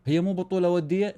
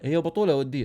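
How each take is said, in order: First: بطوله stressed with a rising tune. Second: Said in the usual way. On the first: Shown as a demonstration. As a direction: ask هي مو بطوله وديه with بطوله lifted. (نبرة على بطوله بنغمة صاعدة)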